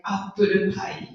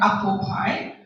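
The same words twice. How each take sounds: First: Flat "apple pie" as appuru pai; Japanese English accent. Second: Said in the usual way. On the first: Shown as a demonstration. Teacher showing the menu word, Japanese English accent. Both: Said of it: "Japanese English is very flat".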